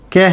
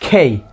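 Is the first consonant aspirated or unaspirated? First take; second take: unaspirated; aspirated. First: The k is said without a puff of air. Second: The k is said with a strong puff of air. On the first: The speaker calls it wrong. "Definitely এটা কে হবে না" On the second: The speaker calls it right. "এটা হবে খেই it will be খেই"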